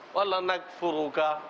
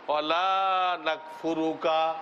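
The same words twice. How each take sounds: First: The vowel in 'la' is kept short. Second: The vowel in 'la' is held long. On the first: We will surely disbelieve in you. The speaker calls it wrong. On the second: We will not disbelieve in you. The speaker calls it right.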